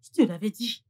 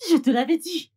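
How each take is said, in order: First: Said in the usual way. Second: Told you so, higher and louder; insistent told-you-so. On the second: Acted. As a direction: drive the point home, louder. Répète, plus haut et fort. (je te l'avais dit, plus haut et plus fort)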